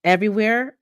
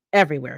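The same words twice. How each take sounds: First: Rising, higher, disbelieving question; stunned. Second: Falling, offhand, as if nothing; casual and flat. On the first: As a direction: ask it in shocked disbelief. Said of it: "I ask, stunned". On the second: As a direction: say it like trivial news. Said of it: "Like he's telling me he's got tickets". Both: Acted.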